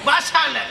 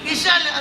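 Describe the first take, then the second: First: The first syllable is said with an a vowel. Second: The first syllable is said with an i vowel. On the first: The speaker calls it right. "ಬಿ ತೆಗೆದು ಬಾ" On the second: The speaker calls it wrong. "ಬಿ ಅಲ್ಲ"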